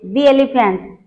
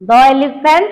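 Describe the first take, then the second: First: 'The' is said with a long 'thee' vowel. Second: 'The' is said with a short 'thuh' vowel. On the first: The speaker calls it right. "वावेल sound आसिले दी पढिबा" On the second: The speaker calls it wrong. "वावेल sound आसिले दी पढिबा"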